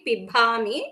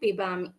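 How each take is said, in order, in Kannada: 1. 'b' ಧ್ವನಿಯನ್ನು ಉಸಿರಿನ ಗಾಳಿಯೊಂದಿಗೆ ಹೇಳಲಾಗುತ್ತದೆ. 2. 'b' ಧ್ವನಿಯನ್ನು ಉಸಿರಿನ ಗಾಳಿಯಿಲ್ಲದೆ ಹೇಳಲಾಗುತ್ತದೆ. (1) "it cannot be pibami" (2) "it should be ba alpa prana"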